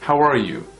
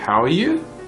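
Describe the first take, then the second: First: The voice falls at the end. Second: The voice rises at the end. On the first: "We don't go with an uptone" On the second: "If we go with an uptone"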